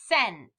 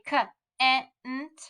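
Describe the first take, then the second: First: The word starts with a soft s sound. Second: The word starts with a hard k sound. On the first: The speaker calls it right. "we know it has to be cent" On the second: The speaker calls it wrong. "if we were sounding it out and we didn't know, we might say"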